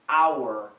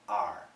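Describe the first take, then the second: First: The word rhymes with 'hour', with a full vowel. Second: The word rhymes with 'car', with a reduced vowel. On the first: "perfect pronunciation" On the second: "most Americans, almost always, we pronounce it as are"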